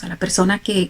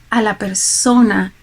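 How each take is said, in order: First: Said in the usual way. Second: Slow, weighty "a la persona" with persona leaned on; stress on persona. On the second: Shown as a demonstration. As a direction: drag out "a la persona" and press hard on persona.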